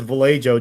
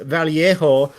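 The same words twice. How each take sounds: First: The name is said with an English pronunciation. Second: The name is said with a Spanish pronunciation. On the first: The brand is treated as coming from New Jersey. "I will pronounce it as Vallejo just to fucking spite you" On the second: The brand is treated as coming from Spain. "it's pronounced Vallejo because they're in Spain"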